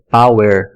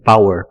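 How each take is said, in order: First: The final syllable has a full 'er' sound. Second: The final syllable has a weak 'uh' sound. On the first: The speaker calls it wrong. "o pessoal pensa que é power, né, er. Não é" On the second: The speaker calls it right. "é power, porque é exatamente esse som de E de cabeça para baixo que é o schwa sound"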